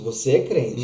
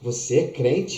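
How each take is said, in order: First: The voice sounds admiring and affirming. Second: The voice sounds doubtful and questioning. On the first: The person recognizes that you are clearly a believer. "uma das frases mais lindas que existem" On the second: The person doubts that you are really a believer.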